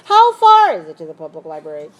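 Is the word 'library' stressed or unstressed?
unstressed. Only 'how far' is stressed; 'library' is not. The speaker calls it wrong. "if I stress only the first two words"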